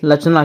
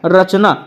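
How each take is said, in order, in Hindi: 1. शब्द की शुरुआत L की आवाज़ से होती है। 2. शब्द की शुरुआत R की आवाज़ से होती है। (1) "लचना पढ़ेंगे" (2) "यहाँ पर रा है लेकिन इसको रचना नहीं पढ़ेंगे"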